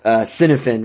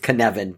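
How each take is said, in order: First: The name begins with a soft S sound. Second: The name begins with a hard K sound. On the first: The speaker calls it wrong. "we always laugh because" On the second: The speaker calls it right. "It's Kenevin ... The hard C and the hard F"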